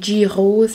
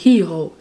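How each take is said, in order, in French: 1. Le mot se prononce comme 'gyros' en français. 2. Le mot se prononce comme 'heroes' en anglais. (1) "je le dis tout le temps mal, là, mais moi, je dis des gyros" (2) "c'est comme des heroes"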